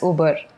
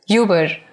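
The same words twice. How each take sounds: First: It is pronounced with a Spanish accent. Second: It is pronounced with an English accent.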